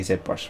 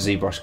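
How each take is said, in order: First: The Z is said as British zed. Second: The Z is said as American zee.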